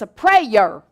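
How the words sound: The word is said with a Southern American accent. "If you say it with a southern accent"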